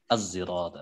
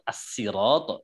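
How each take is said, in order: First: The word begins with an s blended toward z. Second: The word begins with a plain, light s sound. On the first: "dengan zai ishmam" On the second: "membaca dengan sin"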